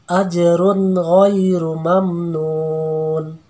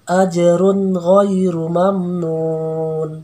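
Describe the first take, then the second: The two takes are said the same way.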